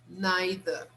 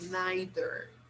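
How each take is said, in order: First: The final R is not pronounced. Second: The final R is clearly pronounced. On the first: "Here in England, the R in the end is not pronounced. They say neither" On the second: "because in America, they pronounce the final R"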